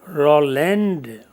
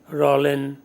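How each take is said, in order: First: The final d sound is clearly heard. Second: The final d sound is silent. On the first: The speaker calls it wrong. "and not Roland, although the spellings take D at the end" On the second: The speaker calls it right. "It will remain Roland Barthes"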